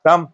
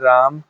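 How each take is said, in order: First: The name is said in an angry, harsh tone. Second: The name is said in a loving, affectionate tone. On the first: The speaker is angry. "गुस्से में बोले राम" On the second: The speaker feels affection. "ये प्यार से बोल अभी मेरी इच्छा है प्यार से बोलने की"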